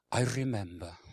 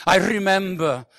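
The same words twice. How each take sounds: First: Lightly put-on Welsh accent; low, reminiscing Welsh accent. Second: High, booming declaration; loud, hammed-up reminiscing; loud testimony. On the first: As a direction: say it with a Welsh lilt. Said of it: "I put a Welsh accent on". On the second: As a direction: proclaim it like a proud testimony. Acts out a testimony, retaking it.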